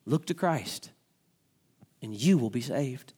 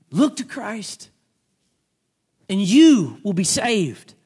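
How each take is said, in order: First: Said in the usual way. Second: Slow, drawn-out plea; slow appeal. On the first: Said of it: "repeated plainly, then preached". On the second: Shown as a demonstration. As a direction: stretch each word as an appeal. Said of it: "repeated slowly as appeal".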